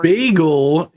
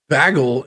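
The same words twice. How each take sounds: First: It is said with an American pronunciation. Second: It is said with a Canadian pronunciation. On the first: "bagel is from America" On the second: "bagel is from the north"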